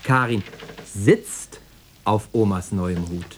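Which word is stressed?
sitzt. The stress falls on the word sitzt. She is sitting rather than standing. "Stehen wäre ja auch auf die Dauer zu unbequem"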